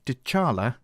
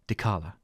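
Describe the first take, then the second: First: The middle consonant sounds like ch. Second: The middle consonant sounds like k. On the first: The speaker calls it wrong. "we mispronounced Dekala's name" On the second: The speaker calls it right. "please imagine we are saying Dekala"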